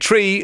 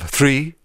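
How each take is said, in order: First: The word starts with a plain t sound. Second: The word starts with a th sound.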